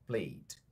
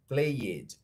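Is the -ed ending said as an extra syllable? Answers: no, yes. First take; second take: no; yes. First: The -ed ending adds no extra syllable. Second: The -ed ending is said as an extra syllable. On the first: The speaker calls it right. "é" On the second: The speaker calls it wrong. "Não é"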